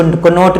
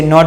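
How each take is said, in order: First: कनॉट with an audible k before n; wrong pronunciation. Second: नॉट begins on n, no k; silent-k pronunciation. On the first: Teacher shows what not to say, wrong pronunciation. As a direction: sound the silent k in कनॉट. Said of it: "कनॉट नहीं". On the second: Teacher corrects the reading for students, silent-k pronunciation. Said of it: "इसे नॉट पढ़ेंगे". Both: Shown as a demonstration.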